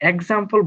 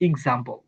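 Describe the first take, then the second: First: The word begins with an 'eks' sound. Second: The word begins with an 'iks' sound. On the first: The speaker calls it wrong. "বলবেন না ভুলেও" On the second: The speaker calls it right. "বলবেন এক্সাম্পল"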